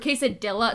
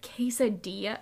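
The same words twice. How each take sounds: First: It is said with a thick American accent. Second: It is said with a Spanish-like pronunciation. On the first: The speaker calls it wrong. "I meant to say it wrong" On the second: The speaker calls it right. "instead you said it right"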